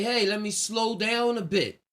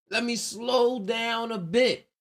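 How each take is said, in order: First: Said in the usual way. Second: Slow, higher, drawn-out words. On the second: Acted. Counterintuitive racer deciding to ease off, slowing right down. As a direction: ease off and stretch each word. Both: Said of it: "being counterintuitive will have you say".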